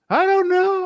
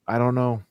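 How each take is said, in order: First: It is yelled, imitating her odd delivery. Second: It is said calmly, without yelling.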